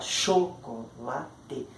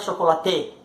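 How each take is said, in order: First: The strongest stress is on the first syllable. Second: The strongest stress is not on the first syllable. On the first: The speaker calls it right. "o cho é forte" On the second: The speaker calls it wrong. "A gente não fala chocolate"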